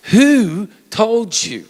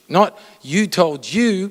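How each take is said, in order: First: "who" stretched slowly, higher and louder; stress on WHO. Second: "you" slowly weighted, not "who"; stress on YOU. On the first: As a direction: lean hard on "who", drag the question out. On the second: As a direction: hit the first "you", slow and firm. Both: Shown as a demonstration.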